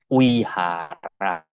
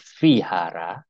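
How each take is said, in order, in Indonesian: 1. Kata ini diawali dengan bunyi W. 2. Kata ini diawali dengan bunyi V. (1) "yang benar bacanya Wihara" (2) "Tulisannya seperti Vihara"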